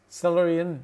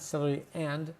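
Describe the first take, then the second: First: The word 'and' is reduced to a short 'n'. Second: The word 'and' is said fully with its vowel. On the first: The speaker calls it right. "the and turns into an N" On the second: The speaker calls it wrong. "not celery and"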